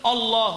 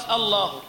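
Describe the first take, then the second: First: الله with a thick, heavy opening hamza. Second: Said in the usual way. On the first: Shown as a demonstration. Teacher demonstrates a common adhan error, heavy hamza. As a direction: darken the first vowel of الله. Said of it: "تقصد تقول تفخيم الهمزة". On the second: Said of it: "والصواب".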